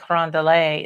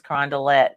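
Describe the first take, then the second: First: The name is said with French pronunciation. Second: The name is said with anglicized local pronunciation.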